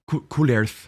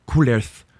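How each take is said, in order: Both takes have the same delivery.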